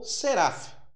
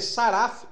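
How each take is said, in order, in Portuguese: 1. A primeira vogal é um som de e. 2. A primeira vogal é um som de a aberto. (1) "ou para E" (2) "para ficar para A"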